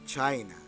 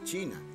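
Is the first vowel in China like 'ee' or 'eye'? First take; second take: eye; ee. First: The first vowel sounds like 'eye'. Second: The first vowel sounds like 'ee'. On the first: The speaker calls it right. "se dice China" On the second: The speaker calls it wrong. "no se dice China"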